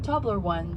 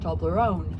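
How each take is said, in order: First: It is said as 'Tobler' followed by 'one'. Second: It is said as one blended word. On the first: It is the original English-style name. The speaker calls it wrong. "Nobody says Tobler one... it sounds very alien" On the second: It is the way everyone says it now. The speaker calls it right. "the Swiss way"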